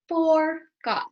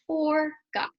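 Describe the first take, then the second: First: Said in the usual way. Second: Breathy whisper, no voice. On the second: Shown as a demonstration. Teacher showing a way to say a word, whispering. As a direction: whisper the word forgot to the class. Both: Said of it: "There's lots of ways you can do it".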